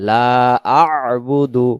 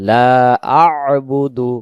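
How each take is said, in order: The two takes are said the same way.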